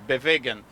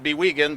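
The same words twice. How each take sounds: First: The name is said in a German way. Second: The name is said in an anglicized way. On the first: This is the original pronunciation. "the real pronunciation in German" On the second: This is how the company itself says it. "we call it"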